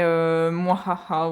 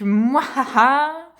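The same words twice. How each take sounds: First: Low, slow basic villain laugh; a lazy, low evil cackle. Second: Slow evil cackle; unhinged villain. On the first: Shown as a demonstration. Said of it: "mon rire diabolique". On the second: Pretend. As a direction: cackle slowly like a cartoon villain. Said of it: "Quel est ton rire diabolique?".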